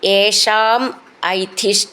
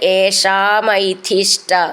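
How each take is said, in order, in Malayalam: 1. രണ്ട് വാക്കുകളും വേറെ വേറെയാണ് പറയുന്നത്. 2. രണ്ട് വാക്കുകളും ചേർത്ത് ഒന്നാക്കി പറയുന്നു.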